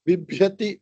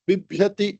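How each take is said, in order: The two takes are said the same way.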